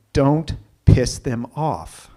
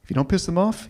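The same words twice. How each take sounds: First: "Don't piss them off" drawn out slowly with weight on "Don't"; slow emphatic warning. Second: Said in the usual way. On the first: Shown as a demonstration. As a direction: lean hard and slow on "Don't". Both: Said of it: "Here's the thing".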